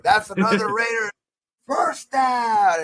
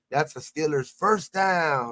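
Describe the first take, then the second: First: Much higher and louder, bellowing it out; mock announcer shout. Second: Stadium announcer. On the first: Taunting Steelers fans with his own first-down call, shouted. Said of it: "I would do it myself". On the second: Retold or imitated. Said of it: "channel where they're like".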